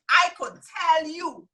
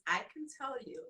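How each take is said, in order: First: Slow, emphatic Virgin Islands accent. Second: Said in the usual way. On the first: Real, not acted. Teacher promising her group they'll earn, insistent Virgin Islands accent. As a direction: stretch it out in a VI accent. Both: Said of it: "that means I can tell you".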